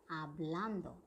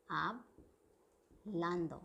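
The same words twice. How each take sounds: First: Said in the usual way. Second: "hablando" split in two, slowly, with a pause after "hab"; broken-up word. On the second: Shown as a demonstration. Teacher showing learners the ando ending, broken-up word. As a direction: say "hablando" slowly in separated parts, hab... lando. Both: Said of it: "I have used ando in the end".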